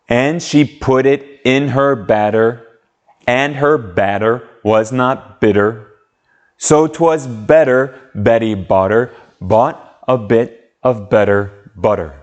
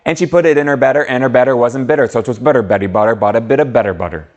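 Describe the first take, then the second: First: It is said at a slow pace. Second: It is said as fast as possible.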